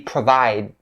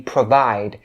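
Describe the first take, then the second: First: The final D sound is stopped, not released. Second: The final D sound is clearly released. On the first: "if you stop it" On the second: "If you enunciate the D sound"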